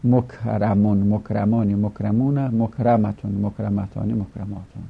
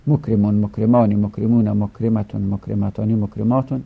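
First: مکرمون with an "a" after the r, mokramun; passive participle forms. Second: مکرمون with an "e" after the r, mokremun; active participle forms. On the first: Teacher reciting passive participles to students, "a" vowel in مکرمون. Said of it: "شش صیغه اسم مفعول". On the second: Teacher reciting active participles to students, "e" vowel in مکرمون. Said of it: "این شش صیغه مال اسم فاعل". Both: Shown as a demonstration.

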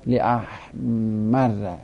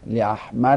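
First: Slow لاحمر, held double r, final "a"; لاحمر drawn out as "li-ahmarra"; fatha ending. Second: لاحمر as "li-ahmarri"; kasra ending. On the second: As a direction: say لاحمر with a doubled r and final "i". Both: Shown as a demonstration.

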